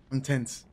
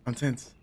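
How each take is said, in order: Both takes have the same delivery.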